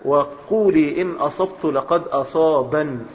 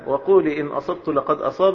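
First: The final word ends with an added n sound. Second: The final word ends without an added n sound.

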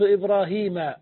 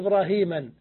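First: The word ends in -a without a final n. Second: The word ends in -an with a final n. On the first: The speaker calls it right. "فتحة أكرمت إبراهيم" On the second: The speaker calls it wrong. "لا إبراهيما"

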